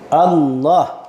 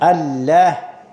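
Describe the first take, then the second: First: The L is pronounced thick and heavy. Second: The L is pronounced thin and light. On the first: The speaker calls it right. "sebutan huruf lam kenalah ditebalkan" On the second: The speaker calls it wrong. "ngaji tajwid tidak sah"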